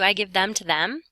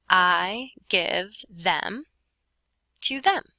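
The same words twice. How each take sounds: First: Said in the usual way. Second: Slow read-out. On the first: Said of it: "if I wanted to change this last sentence". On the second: Shown as a demonstration. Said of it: "And now it says".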